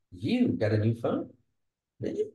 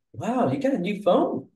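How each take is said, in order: First: Unsure, questioning tone; doubtful. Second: High, bright amazed question; surprised. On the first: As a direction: friend doubting how she afforded the phone. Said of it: "questioning, unsure". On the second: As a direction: gasp it out like you can't believe the new phone. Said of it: "So that's emotion". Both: Shown as a demonstration.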